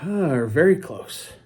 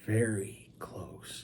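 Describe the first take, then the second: First: Slow, sighed emphasis at normal volume; sigh, then stretch the words out; drawn-out emphasis. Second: Very slow, hushed whisper for effect. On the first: Stressing mother-daughter closeness. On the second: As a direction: whisper it, stretching each word right out. Repeats it for effect. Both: Real, not acted.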